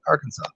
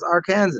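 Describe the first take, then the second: First: "Arkansas" ending in "saw", no S sound; "Arkansas" pronounced "AR-kan-saw". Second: "Arkansas" pronounced like "ar-KAN-zis"; "Arkansas" with the word Kansas in it. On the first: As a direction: say "Arkansas" with a silent final S. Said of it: "A R then the word Kansas. Nope". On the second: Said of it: "A R then the word Kansas". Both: Shown as a demonstration.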